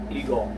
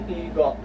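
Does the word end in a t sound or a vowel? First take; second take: vowel; t sound. First: The word ends on a vowel, no t. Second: The word ends with a final t sound. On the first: It is the everyday spoken form. "the T sound is omitted" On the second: It is the careful reading by the rule. "if you're reading it as a word, applying the rule"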